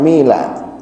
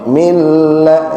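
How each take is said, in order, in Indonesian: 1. Bunyi l pendek dan tunggal. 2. Bunyi l panjang dan ganda. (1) "bukan mila" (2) "tapi milla"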